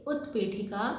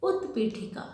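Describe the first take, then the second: First: उत्पीठिका spoken syllable by syllable as उत्-पी-ठि-का, with the त् clearly closed; careful pronunciation. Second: Said in the usual way. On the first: Shown as a demonstration. Teacher shows children how to say the word, carefully. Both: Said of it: "इस शब्द का भी उच्चारण ध्यान से सुनेंगे".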